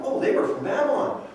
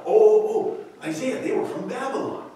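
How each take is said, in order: First: Said in the usual way. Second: High, eager self-satisfied reply; proud king. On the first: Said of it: "his responses come back as if he's proud". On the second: Acted. Hezekiah answering the prophet, pleased and proud. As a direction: boast without noticing the trap. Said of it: "as if he's proud".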